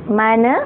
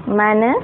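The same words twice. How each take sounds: Both takes have the same delivery.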